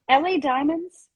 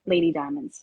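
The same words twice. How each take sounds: First: L A Diamonds read as letters L and A; spelled letters. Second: Lady Diamonds said as the word lady; nickname. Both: Shown as a demonstration. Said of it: "Can I call you Lady Diamonds?".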